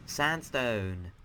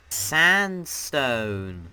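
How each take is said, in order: First: Said in the usual way. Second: Loud, drawn-out title; announcer call. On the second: Real, not acted. Host naming the next dimension for viewers, loud stretched announcement. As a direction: call it out big and long.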